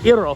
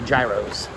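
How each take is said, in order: First: The word is said with the Greek pronunciation. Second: The word is said with the American pronunciation. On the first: This is the correct pronunciation. The speaker calls it right. "gyro is the correct way to pronounce it" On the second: This is how Americans say it. The speaker calls it wrong. "but Americans say gyros"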